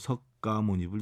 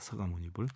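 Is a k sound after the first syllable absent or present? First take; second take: present; absent. First: A k sound closes the first syllable. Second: No k sound closes the first syllable. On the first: The speaker calls it wrong. "이렇게 하는데 너무 잘못됐지요" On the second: The speaker calls it right. "서가모니불이 맞습니다"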